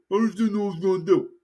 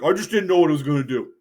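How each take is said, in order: First: Quicker, more slurred repeat of the excuse; slurred mumbled excuse. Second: Rushed, lightly mumbled excuse; hurried excuse. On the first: Politician's sheepish excuse trailing into a fast slur. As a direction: mumble it fast so the words blur. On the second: Politician rattling off a sheepish excuse, rushed. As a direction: hurry through a sheepish excuse, a little faster. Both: Retold or imitated. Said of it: "be like".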